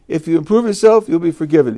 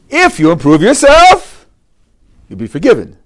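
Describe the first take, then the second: First: It is read in a flat, plain tone. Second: It is read with expressive, lively intonation.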